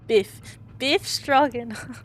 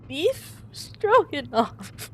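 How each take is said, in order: First: "Biff Stroganoff" with a short clipped i, slowed; Biff corrected. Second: Put-on "Beef Stroganoff" drawled slowly in a thick Russian accent, higher; drawn-out Beef. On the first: Acted. Player repeating the sailor's name, "Biff" short. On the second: Biff announcing his full name, "Beef" slow and hammed.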